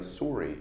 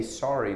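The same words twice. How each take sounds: First: Sorry said "sore-ee"; Canadian "sorry". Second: Said in the usual way. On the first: Shown as a demonstration. Actor recalling his childhood habit, Canadian "sorry" as "sore-ee". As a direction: give sorry a rounded "or" vowel. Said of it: "I would say it like Canadians". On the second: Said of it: "like, sorry".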